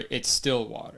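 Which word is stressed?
still. The stress falls on the word still. It is non-sparkling water. "if I ordered still water at a restaurant"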